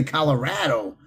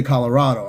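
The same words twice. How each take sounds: First: "Colorado" with the A of "cat"; Colorado with flat A. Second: Said in the usual way. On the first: Shown as a demonstration. Showing how some people say it, "Colorado" as colo-RAD-o. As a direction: say "Colorado" so RAD rhymes with "had". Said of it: "some people say Colorado". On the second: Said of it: "I say Colorado".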